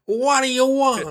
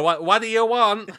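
First: Much higher, exaggerated Brooklyn accent. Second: Put-on raised pitch, rough Brooklyn accent. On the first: Co-host copying the pretend secretary, high-pitched Brooklyn accent. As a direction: echo it as a hammed-up Brooklyn receptionist. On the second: Pretend secretary answering callers, put-on Brooklyn accent. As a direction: attempt a brusque Brooklyn receptionist accent. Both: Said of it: "like, a Brooklyn accent".

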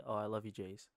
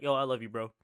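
First: Soft, lower heartfelt I love you; tender. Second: Offhand bro-style I love you; casual bro. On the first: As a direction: say it gently and sincerely. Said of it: "another way to say". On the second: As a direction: toss it off casually to a buddy. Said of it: "it's different to say, like". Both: Shown as a demonstration.

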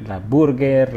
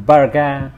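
First: "la burger" with a clear tapped r, "buɾɡer"; American burger. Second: "burger" said as "barga", no final r, open a; Aussie burger. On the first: Contrasting the American "burger" with the Aussie one. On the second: Showing friends how Australians say "burger". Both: Shown as a demonstration. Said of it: "la versión de la".

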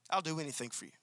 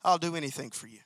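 First: Much softer, hushed devoted promise; tender devotion. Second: Softer devoted promise. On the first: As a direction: breathe it to her as a tender vow. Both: Shown as a demonstration. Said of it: "with an attitude that says".

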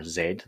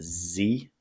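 First: Z said as "zed"; name the letter Z the British way, zed. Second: Z said as "zee"; name the letter Z the American way, zee. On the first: Teacher spelling ziggurats for British English users, Z as zed. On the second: Teacher spelling ziggurats for American English users, Z as zee. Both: Shown as a demonstration. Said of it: "British English or American English".

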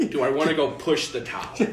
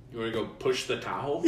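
First: Higher, much louder mocking echo; incredulous echo. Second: Mild mock invitation, close to usual voice; retold dad's offer. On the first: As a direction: throw the question back in disbelief. Incredulous echo of dad's offer. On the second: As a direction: lightly imitate a dad proposing an outing.

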